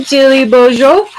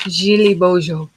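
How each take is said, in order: First: Loud, higher-pitched hello to a name; called-out greeting. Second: Put-on French accent. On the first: Real, not acted. Greeting a live viewer by name, called out loud and high. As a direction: sing out the name louder, lifting at the end. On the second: Streamer trying a viewer's name, in a French accent. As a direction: say "Jilly Bojo" as if French, zh sounds throughout. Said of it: "say that with a French accent".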